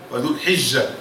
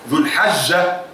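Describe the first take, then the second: First: The vowel after the h is 'i'. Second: The vowel after the h is 'a'. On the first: "والأفصح فيها ذو الحجة بالكسر" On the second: "تنطق بالفتح والكسر"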